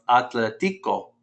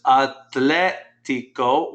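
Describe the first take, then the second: First: Atletico stressed on "ti" instead of "tle". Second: Atlético drawn out slowly, stressed on "tlé". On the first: Teacher showing the word without its accent, atletico stressed on TI. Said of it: "if this E wasn't accented there". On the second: Teacher pointing out the accent mark, atlético stressed on LÉ. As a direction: hit the E in atlético, at-LÉ-ti-co. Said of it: "put an accent mark over that E". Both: Shown as a demonstration.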